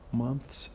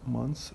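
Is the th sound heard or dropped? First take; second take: heard; dropped. First: The th sound is pronounced. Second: The th sound is dropped.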